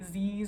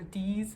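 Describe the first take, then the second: First: The word begins with a buzzing z sound. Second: The word begins with a hard d sound. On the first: "some people say z's" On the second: "or d's"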